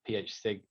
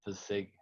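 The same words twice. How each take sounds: First: P H spelled as letters, then sig; "P H sig" with the first two letters named. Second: "f-, sig" sounded out, not spelled; tentative "f-, sig" with the letters blended; read as a word. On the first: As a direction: say P and H separately before "sig". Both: Shown as a demonstration. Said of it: "how you pronounce that".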